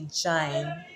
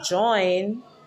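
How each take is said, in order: First: It is said with a Patois long i vowel. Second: It is said with the standard English oy vowel. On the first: "they say jine" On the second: "Jamaicans will not say join when they speak in patois"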